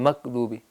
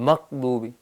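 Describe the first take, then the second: No difference in how they are said.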